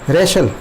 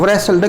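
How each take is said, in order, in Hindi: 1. शब्द सीधे र की आवाज़ से शुरू होता है। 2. र से पहले 'w' की आवाज़ सुनाई देती है।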